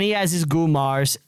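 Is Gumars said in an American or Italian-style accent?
American. Gumars is said in an American accent. "Brian was doing the uh, the American version"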